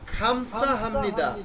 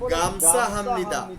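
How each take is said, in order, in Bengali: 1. প্রথম শব্দটি শ্বাসযুক্ত KH ধ্বনি দিয়ে শুরু হয়। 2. প্রথম শব্দটি ঘোষবৎ G ধ্বনি দিয়ে শুরু হয়। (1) "এটার অরিজিনাল উচ্চারণ হচ্ছে খামসা হামনিদা" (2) "তারা এটাকে বলে গামসা হামনিদা"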